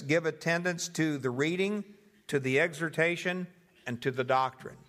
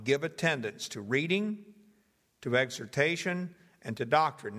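First: Each "the" leaned on before the noun; stress on each article. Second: Said in the usual way. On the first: Shown as a demonstration. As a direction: give "the reading", "the exhortation", "the doctrine" a deliberate weight. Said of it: "laying specific emphasis on each one". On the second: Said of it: "So it would read like this".

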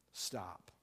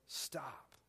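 First: Stop, dropped low and soft; hushed sudden stop. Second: Stop, dropped low and soft; hushed command. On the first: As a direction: let the word fall away quietly. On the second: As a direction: let the word land quietly. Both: Shown as a demonstration. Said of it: "I'm gonna say that again".

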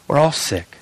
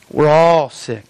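First: Said in the usual way. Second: "all" leaned on and stretched; stress on all. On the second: Real, not acted. Pastor including himself among the sick, "all" emphasised. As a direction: repeat it with more weight on "all". Repeats the line with more weight.

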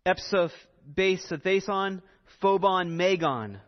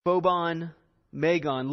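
First: Slow, careful Greek "epsophason, phobon, megon"; Greek pronunciation. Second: "Phobon, megon" repeated, firm and clear; Greek repeated. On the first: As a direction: sound out "phobon, megon" syllable by syllable. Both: Shown as a demonstration. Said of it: "the Greek is".

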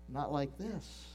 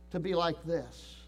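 First: Dropped low and soft; quiet contrast. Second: Said in the usual way. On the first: Shown as a demonstration. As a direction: let it fall away, hushed.

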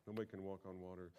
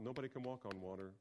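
First: "Nobody can walk on water" rushed and softer, no weight on "Nobody"; fast, dropped repeat of "Nobody can walk on water"; quicker and softer. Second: "nobody" with a long held n, then the rest firm; "nobody" stretched and punched; stress on nobody. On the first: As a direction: toss it off quickly. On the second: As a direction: lean hard into "nobody". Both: Shown as a demonstration. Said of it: "they know it's impo".

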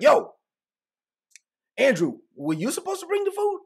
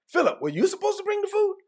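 First: Squabbling disciple demands who forgot the food; arguing disciple. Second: Much higher accusing question; arguing disciple. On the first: Disciple blaming Andrew over the bread, high pitched accusing. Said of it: "so they're having an argument like". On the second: Disciple turns on Philip about the food, high and accusing. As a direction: pin the blame on Philip, pitched way up. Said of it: "It's like". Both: Retold or imitated.

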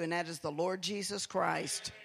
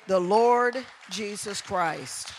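First: Said in the usual way. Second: "The Lord Jesus Christ" slow, louder, each word weighted; emphatic repeat. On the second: Real, not acted. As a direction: proclaim "The Lord Jesus Christ" slowly and loud. Preacher repeats name for emphasis.

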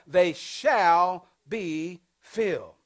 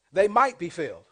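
First: Very slow, each word laid down; deliberate correction of the verse; slow, corrected verse. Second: Said in the usual way. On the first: Shown as a demonstration. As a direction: spell out the right wording slowly. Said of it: "It says what?". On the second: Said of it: "It says what? "They shall be filled".

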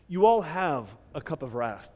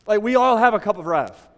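First: Said in the usual way. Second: Louder preaching push. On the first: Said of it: "asks congregation directly". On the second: Real, not acted. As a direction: say it again, louder and harder. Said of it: "repeats line with rising force".

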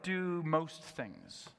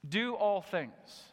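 First: Slow, with "most" leaned on teasingly; "Do most things" drawn out slowly, most stressed as a joke; mock easy version. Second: Slow, with all leaned on hard; "Do all things" spelled out slowly, all punched; stress on all. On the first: Preacher teasing the congregation, slow mock stress on most. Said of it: "wouldn't it be awesome if he could just say". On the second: Preacher to congregation, all stressed slowly. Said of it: "what comes to mind when you see that". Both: Shown as a demonstration.

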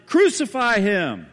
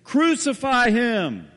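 First: Loud, slow, high mob cry; crowd shout. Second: Loud, high, slow mob cry; crowd shout. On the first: The crowd heard in the prison, a slow loud roar. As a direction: roar it from far off, all as one. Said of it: "the crowd shouted". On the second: The crowd answering Pilate, a slow loud roar. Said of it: "the crowd answers in unison". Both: Retold or imitated.

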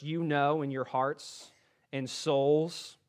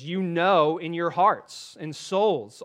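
First: Said in the usual way. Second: Slow, louder, leaning on know in "you know in your hearts and souls"; slow savoring reread. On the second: Shown as a demonstration. Preacher rereads a favorite verse to the congregation, slow and savoring. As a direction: linger over each word of the phrase. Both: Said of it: "I like that phrase".

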